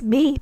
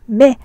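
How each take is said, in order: First: The prefix vowel is an 'i' sound. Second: The prefix vowel is an 'e' sound. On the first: The speaker calls it wrong. "not as me" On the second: The speaker calls it right. "pronounces the mem as me"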